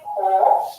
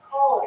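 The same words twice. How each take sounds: First: The vowel is long and drawn out. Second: The vowel is an oo sound with slight R. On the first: "it has more of an elongated sound" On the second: "it has more of an oo sound, but they also roll the R ever so slightly"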